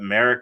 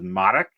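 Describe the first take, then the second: First: The name is said with a plain English pronunciation. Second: The name is said with a Polish pronunciation. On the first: It is how the person actually says his name. "it's as plain as you said it" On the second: It follows the traditional family origin. "the more traditional Polish way to say it"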